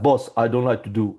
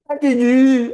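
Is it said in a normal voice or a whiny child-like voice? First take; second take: normal; whiny child-like. First: It is said in a normal voice. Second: It is said in a whiny, child-like voice.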